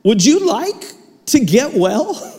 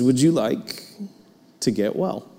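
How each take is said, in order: First: Blunt question. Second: Soft and low, "well" dropping away; gentle question. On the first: Retold or imitated. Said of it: "And Jesus walks up and goes". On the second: Shown as a demonstration. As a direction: ask it tenderly, not as a test. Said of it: "But Jesus doesn't ask that".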